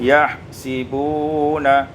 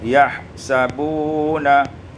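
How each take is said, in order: First: The vowel after the s is i. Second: The vowel after the s is a.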